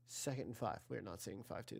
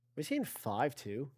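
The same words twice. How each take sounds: First: Much softer, mumbled aside to himself; dropping right down to a muttered correction; quiet self-correction. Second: Said in the usual way. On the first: Real, not acted. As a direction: sheepishly take it back under your breath. Mutters his own correction.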